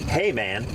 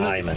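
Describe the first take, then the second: First: The first syllable sounds like 'hey'. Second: The first syllable sounds like 'high'. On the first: It is read the way it is spelled in English. The speaker calls it wrong. "It's spelled H E Y M A N N" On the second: It is read the German way. The speaker calls it right. "in German, the Y is an I sound"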